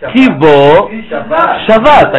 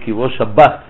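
First: The last word has a soft v sound. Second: The last word has a hard b sound. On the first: The last word is read as a verb meaning rested. The speaker calls it right. "הקדוש ברוך הוא שבת" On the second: The last word is read as the noun for the day. The speaker calls it wrong. "זה טעות"

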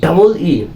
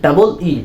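The two takes are said the same way.

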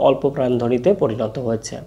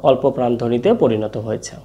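Both takes have the same delivery.

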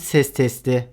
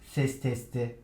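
First: The voice sounds fuller and louder. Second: The voice sounds weaker and quieter. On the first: The speaker is in front of the microphone. "Ön taraftan ses testi" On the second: The speaker is behind the microphone. "kardioid modda arkadan daha az ses alıyor"

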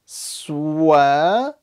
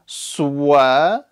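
First: Lips round, adding a w sound. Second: Lips round, adding a w sound.

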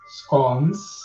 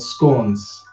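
First: The word is said the British English way. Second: The word is said the American English way. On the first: "It's called scones in British English" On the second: "In the American English, it's called scones"

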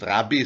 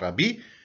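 First: The stress is on the first syllable. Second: The stress is on the last syllable. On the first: The speaker calls it wrong. "also nicht Rabbi" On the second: The speaker calls it right. "hebräische Wörter immer am Ende betonen"

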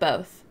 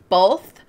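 First: The word has no L sound before the th. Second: The word has an L sound before the th. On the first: "instead of both" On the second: "saying both with an L"

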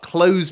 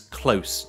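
First: The word ends with a buzzing z sound. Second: The word ends with a hissing s sound. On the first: Completing a sale. The speaker calls it right. "close makes more sense because it's a sales-focused one" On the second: Being near to something. The speaker calls it wrong. "I thought it was close"

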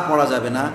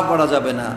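The two takes are said the same way.

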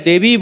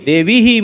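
First: The word ends plainly on the vowel. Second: The word ends with an added breathy 'h' echo. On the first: The speaker calls it right. "देवी है तो देवी बोलिए" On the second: The speaker calls it wrong. "मत बोलिए, तो यह भी त्रुटि है"

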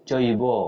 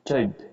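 First: The word ends with an 'o' vowel sound. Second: The word ends on a consonant, without a vowel. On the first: "ও আসছে" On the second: "যদি এটা নিচে হস থাকতো তাহলে হতো চৈব চৈব, ও আসতো না"

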